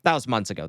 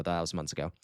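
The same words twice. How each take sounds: First: Said in the usual way. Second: Quiet repeat. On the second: Acted. Repeats the line much quieter.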